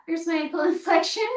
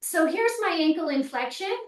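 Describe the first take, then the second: First: Quick, amused, laughing mid-word. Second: Said in the usual way. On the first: Real, not acted. Instructor repeats her demo to viewers, laughing. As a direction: laugh through it as you say it again. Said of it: "Oh, look at that". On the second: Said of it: "I'm just gonna show you".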